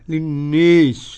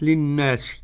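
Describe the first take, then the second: First: The long vowel is bent strongly toward 'e'. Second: The long vowel is an open 'a' sound. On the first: "إمالة كبرى" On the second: "بالفتح"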